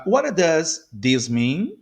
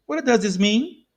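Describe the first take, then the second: First: What does this mean, slow with spaced words; slow model. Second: Said in the usual way. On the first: Shown as a demonstration. Teacher modelling a question for learners, slowly. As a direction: separate each word for learners.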